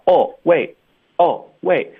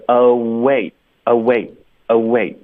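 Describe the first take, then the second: First: Higher "Oh, wait" split in two, flat "oh" then a stop; mock student error. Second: "Oh, wait" as one smooth unit, lips gliding into w; linked reading. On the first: Teacher mimicking students' mistake, higher disconnected "Oh, wait". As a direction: break "Oh, wait" apart like students do. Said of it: "很多的学生就喜欢发". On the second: Shown as a demonstration. Teacher drilling the linked form, smooth "Oh, wait". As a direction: run "Oh" into "wait" without a gap. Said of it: "我们要连起来发".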